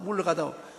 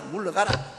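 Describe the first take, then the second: First: It is said in a weak, pleading tone. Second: It is said in a firm, commanding tone.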